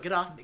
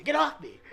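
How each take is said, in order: First: Said in the usual way. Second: Alarmed get off me. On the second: Retold or imitated. Coming round to his wife slapping him, startled and high. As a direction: pitch jumps much higher, rising at the end.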